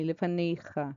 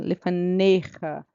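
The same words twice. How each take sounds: First: The e sound before -cha is soft. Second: The e sound before -cha is reinforced. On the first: "Ou você pode falar ele suavemente como um E" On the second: "ele pode ter som só de reforçar o som do E"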